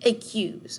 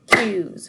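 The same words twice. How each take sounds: First: Said in the usual way. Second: "Accuse" broken in two, loud beats; syllable by syllable. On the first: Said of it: "how many syllables we have". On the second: Shown as a demonstration. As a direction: count out the syllables of "Accuse" loudly. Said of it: "see how many syllables we have".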